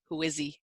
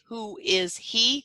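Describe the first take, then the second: First: The words run together and the H disappears. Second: Each word is said fully, with a clear H. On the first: The speaker calls it right. "So much faster to say" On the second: The speaker calls it wrong. "how much extra effort it takes to say who is he. It's slow"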